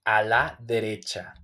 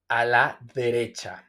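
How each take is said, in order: Both takes have the same delivery.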